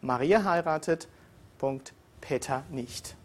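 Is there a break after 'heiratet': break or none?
break. There is a break after heiratet. Maria marries, but Peter does not. "diesen gleichen Satz anders ausgesprochen"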